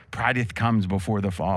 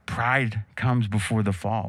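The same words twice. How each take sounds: First: "Prideth" with an added "-eth" ending. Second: Said in the usual way. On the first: Shown as a demonstration. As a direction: archaic "-eth" tacked onto "Prideth". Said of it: "put, like, a T H on the end". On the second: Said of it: "they put, like, a T H on the end".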